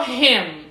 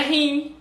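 First: "him" ending on a firm, closed-lip M; slow, drawn-out "him", lips shut at the end; teacher's model "him" with a clear M; final M closed. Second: "him" with a nasal vowel and open lips; "him" mispronounced with an open nasal ending; final M dropped. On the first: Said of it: "É igual him, não é him". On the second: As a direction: say "him" Brazilian-style, no M at the end. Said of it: "não é him". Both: Shown as a demonstration.

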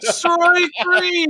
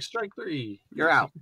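First: High, drawn-out umpire yell; showy umpire call. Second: Soft, offhand umpire call; low-key umpire. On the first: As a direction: holler it like an over-the-top umpire. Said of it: "Some umpires are like". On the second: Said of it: "and some are just like". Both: Retold or imitated.

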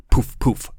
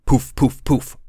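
First: Breathy whispered poof sounds; soft pillow poofs. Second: Punchy voiced poof sounds; louder pillow poofs. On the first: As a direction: puff out soft unvoiced poofs. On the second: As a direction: pop out loud poofs. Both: Shown as a demonstration. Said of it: "pillow sound effect".

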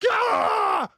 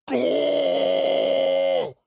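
First: Much higher, pushed GAH; pushed wrong placement. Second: Long, rounder GAH, less high; chest-voice belt. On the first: Showing co-host the mistake, high pushed yelp. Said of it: "you're putting it from here like this". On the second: Showing co-host the right placement, long chest belt. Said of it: "from your chest right here". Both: Shown as a demonstration.

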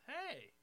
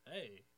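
First: High-pitched imitated woman's hello; expectant greeting. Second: Said in the usual way. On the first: Woman greeting a man she thinks she knows, high expectant hello. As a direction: pitch the greeting way up, as if you know him.

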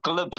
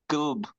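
First: "glub" with the l before the u, raised pitch; wrong pronunciation. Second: "gulb" with the u first, then l-b, falling; correct pronunciation. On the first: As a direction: say "glub" as one quick gl-syllable. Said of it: "it's gulb". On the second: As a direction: say "gulb" as gu-lb, firm fall. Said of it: "it's not glub". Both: Shown as a demonstration.

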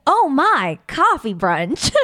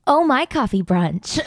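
First: Very slow, laughing through "Oh My Coffee Brunch"; laughing ad slogan. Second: Drawn-out slogan, said slowly. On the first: Second pitch for the cafe ad, very slow and laughing. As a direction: stretch each word out while giggling. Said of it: "Or, like". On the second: Friends take turns pitching a cafe name: slow commercial read. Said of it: "There's so many ways you can say it". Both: Shown as a demonstration.

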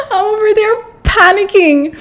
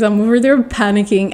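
First: Very high, squealed retelling of panic; hammed-up panicky squeal; mock panic. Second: Said in the usual way. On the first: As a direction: voice shoots up in playful panic.

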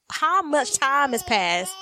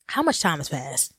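First: Slow, higher, stretched-out question; stoned, drawn-out puzzlement; dazed wondering. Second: Lower, settled delivery; low, matter-of-fact repeat; dropped-down question. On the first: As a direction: draw out each word as if lost in time. Acting out losing track of time. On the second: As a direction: ask it low, without stretching it. Same question repeated more plainly. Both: Retold or imitated.

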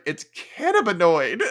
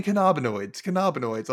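First: "cannabinoid" as CAN-a-bi-noid, high and loud; laughing correction, "cannabinoid" stressed on CAN; loudly fix "cannabinoid" with first-syllable stress; corrected pronunciation. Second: "cannabinoids" as kuh-NAH-bi-noids, repeated; "cannabinoids" twice, stressed on the second syllable; mispronounced cannabinoids. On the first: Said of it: "I was like". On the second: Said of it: "And she kept saying". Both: Retold or imitated.

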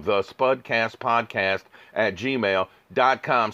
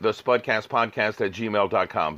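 First: Slow, spaced-out dictation; slow repeat. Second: Said in the usual way. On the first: Real, not acted. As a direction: repeat it slowly so listeners catch the address. Repeats email address for listeners.

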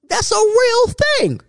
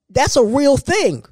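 First: "real" stretched high and emphatic; stress on real. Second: Said in the usual way. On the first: Real, not acted. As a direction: lean hard on "real", pitched way up.

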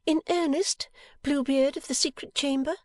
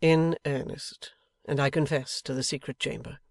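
First: High-pitched teasing question; Bella, brightened wife. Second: Earnest husband. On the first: Wife teases husband as she stops pouting, playful. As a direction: ask it playfully, pitched far up. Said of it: "clearing her pretty face". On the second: Husband confesses to the secret chamber, earnest. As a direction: confirm it gravely, drawing out the opening. Husband solemnly echoes his wife. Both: A narrator's reading.

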